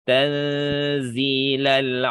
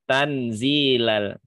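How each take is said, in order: First: The n is hidden with a held nasal hum. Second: The n is clear with no nasal hum. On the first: The speaker calls it right. "seharusnya dibaca dengan ikhfa" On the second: The speaker calls it wrong. "Jadi nun sukunnya jelas. Plus nggak pakai dengung"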